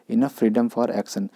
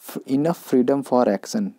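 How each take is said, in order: First: Very slow, word by word; slow dictation of the idiom, stress on freedom; slow idiom read. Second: Very slow, word by word; slow dictation of the idiom, stress on enough; slow idiom read. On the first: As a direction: lay out each word for the class. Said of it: "teacher repeats idiom slowly". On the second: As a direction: spell out each word for the class. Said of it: "teacher spells out idiom slowly". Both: Shown as a demonstration.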